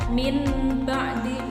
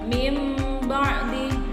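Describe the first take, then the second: First: The first word ends with an n sound. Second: The first word ends with an m sound. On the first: The speaker calls it wrong. "nggak boleh dibaca min ba'di, itu tidak boleh, salah" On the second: The speaker calls it right. "kita ganti dengan huruf mim, terus langsung ke ba"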